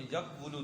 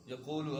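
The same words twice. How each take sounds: First: یقول drawn out as "yaq-wu-lu"; original uncontracted form. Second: Said in the usual way. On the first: Shown as a demonstration. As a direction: sound the hidden w in یقول, "yaq-wulu". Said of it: "اصل میں یقول تھا". (یقول کو اصل شکل میں "یَقْ وُلُ" کھینچ کر) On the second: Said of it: "یقول اصل میں یقول تھا".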